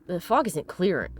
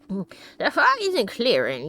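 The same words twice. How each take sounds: First: It is said in the speaker's normal voice. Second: It is said in a put-on old man voice.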